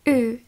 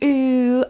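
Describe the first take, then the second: First: The u vowel is moderately long. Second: The u vowel is held very long. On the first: The speaker calls it right. "Trošku je to delší" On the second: The speaker calls it wrong. "není mega dlouhé, není tam u"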